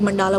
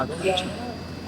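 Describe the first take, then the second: First: मंडाला with a long aa in the middle, man-DAA-la; मंडाला as some people say it, long aa; mandala with long aa. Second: मंडला with a short, clipped middle a, MAN-da-la; मंडला pronounced quick, short middle vowel; mandla with short a. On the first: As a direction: say मंडाला stretching the second syllable to aa. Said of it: "कुछ लोग मंडाला बोलते हैं". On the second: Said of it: "कुछ मंडला". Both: Shown as a demonstration.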